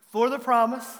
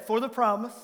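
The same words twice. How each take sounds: First: A bit louder, firmer on promise; stronger recital. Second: Said in the usual way. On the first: Shown as a demonstration. Pastor urging the church to say it louder, firm. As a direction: say it with more conviction this time. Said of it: "That's better". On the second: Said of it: "Let's try again".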